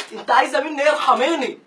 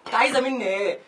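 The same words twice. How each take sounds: First: Exasperated plea. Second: Said in the usual way. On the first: Acted.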